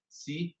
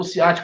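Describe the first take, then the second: First: "ciat" split into separate syllables, ci, a, te. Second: Said in the usual way. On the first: Shown as a demonstration. Teacher counting syllables on fingers, "ciat" broken apart. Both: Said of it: "Separa a sílaba".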